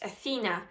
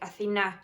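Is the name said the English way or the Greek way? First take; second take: English; Greek. First: The name is said with English pronunciation. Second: The name is said with Greek pronunciation. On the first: "in English, it would be pronounced as" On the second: "my name is also Greek"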